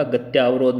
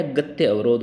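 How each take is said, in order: First: गत्य अवरोध run together as gatyaa-vrodh; गत्य अवरोध merged with long आ; wrong long vowel. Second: गत्य अवरोध with a short a opening अवरोध; गत्य अवरोध, second word starting on short अ; correct short vowel. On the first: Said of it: "गत्य अवरोध नहीं होगा". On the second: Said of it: "गत्य अवरोध सही है". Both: Shown as a demonstration.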